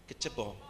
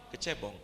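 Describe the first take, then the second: No difference in how they are said.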